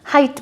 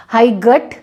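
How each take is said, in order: First: हाइट said as HITE, GH silent; correct pronunciation. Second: हाई गट with a hard G sounded; हाई गट said wrongly; wrong pronunciation. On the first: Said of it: "हाइट ले बोला जाएगा". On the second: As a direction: sound the GH in height as a G. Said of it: "हाई गट नहीं बोलेंगे". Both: Shown as a demonstration.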